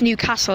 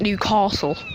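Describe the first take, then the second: First: It is said in a plain local accent. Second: It is said in a posh accent. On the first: The speaker calls it right. "It's Newcastle, that's how it's pronounced" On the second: The speaker calls it wrong. "it's not Newcastle. Well, I suppose you got to be posh"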